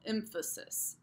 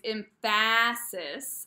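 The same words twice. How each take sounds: First: The middle syllable is short with a neutral vowel. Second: The middle syllable is stressed with a full vowel. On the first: The speaker calls it right. "you still have that really unstressed middle" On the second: The speaker calls it wrong. "I'm making an actual stressed vowel where there shouldn't be one"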